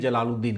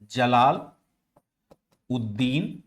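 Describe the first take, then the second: First: The name is run together as one word. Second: The name is split into two separate words. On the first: The speaker calls it wrong. "सीधे जलालुद्दीन कह देते हैं" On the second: The speaker calls it right. "असल उच्चारण जो होता है वह होता है आपका इस प्रकार का होगा"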